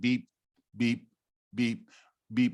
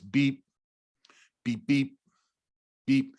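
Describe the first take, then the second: First: The beeps come at steady, even intervals. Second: The beeps come at uneven, varying intervals. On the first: The heart beats with a steady consistent rhythm. "our heart's beating once a second" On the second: The heart shows high beat-to-beat variability. "with high variability"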